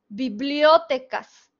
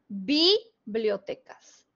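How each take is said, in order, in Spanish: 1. La sílaba tónica es la sílaba o. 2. La sílaba tónica es la primera, bi. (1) "suponiendo que fuera esdrújula" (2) "Imaginen que la sílaba tónica de bibliotecas es bi"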